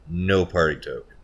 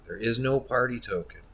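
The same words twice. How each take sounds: First: "No" hit loud, falling "No party token"; stress on NO. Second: "no" stressed high, falling "There is no party token". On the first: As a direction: punch "No" firmly in "No party token". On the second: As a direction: punch "no" before "party token". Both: Shown as a demonstration.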